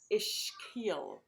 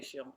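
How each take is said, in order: First: It is the careful, standard pronunciation. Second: It is a simplified, easier pronunciation. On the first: "correct pronunciation is as ischial" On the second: "But I say ischial. It's easier to say"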